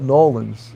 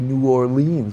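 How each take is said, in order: First: The name is squeezed into two short syllables. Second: The name is said in full, syllable by syllable. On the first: This is how locals say it. "That's how they say it" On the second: This is the usual outside way of saying it. "you say New Orleans"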